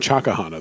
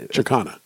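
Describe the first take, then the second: First: An extra vowel is heard between K and H. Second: No vowel is heard between K and H. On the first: The speaker calls it wrong. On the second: The speaker calls it right.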